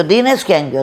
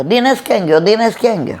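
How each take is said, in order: First: Said in the usual way. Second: Higher, urgent mock calling. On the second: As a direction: call across the crowd for Dinesh. Guests calling for the groom. (ઊંચા સૂરે બૂમ પાડીને શોધવું)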